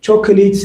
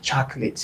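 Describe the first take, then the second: First: ቾኮሌት with both o vowels sounded, in three syllables; ቾኮሌት with the middle o not silent; mispronounced chocolate. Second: Chocolate in two syllables, CHAK-lit, middle o silent; correct pronunciation. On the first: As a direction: say ቾኮሌት as spelt, cho-ko-let. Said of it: "እንድሕር ትኽክለኛ እናባ ቻክሌት ኮይኑ እዛ ኦ ሳይለንት". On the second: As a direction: drop the second o in chocolate. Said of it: "that's the right pronunciation". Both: Shown as a demonstration.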